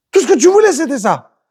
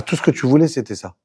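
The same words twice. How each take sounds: First: "voulais" raised high and loud; emphatic repeat. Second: Said in the usual way. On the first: Shown as a demonstration. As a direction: hammer "Tout ce que tu voulais" high. (insister fort et aigu sur "voulais")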